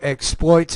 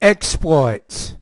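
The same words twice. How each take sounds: First: The stress is on the second syllable. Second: The stress is on the first syllable. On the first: It is used as a verb. "as a verb ... verbs we have stress in the second" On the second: It is used as a noun. "as a noun"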